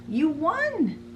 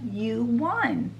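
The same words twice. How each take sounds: First: Cheshire Cat, pitched up high; high Cheshire Cat voice announcing the win. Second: Said in the usual way. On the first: Acted. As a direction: purr it out as the grinning cat. Cheshire Cat tells Alice.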